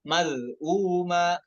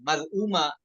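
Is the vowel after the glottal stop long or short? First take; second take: long; short. First: The vowel after the glottal stop is lengthened. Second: The vowel after the glottal stop is short. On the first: The speaker calls it right. "tapi dibaca dua harokat" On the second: The speaker calls it wrong. "berarti baji dibaca pendek dong"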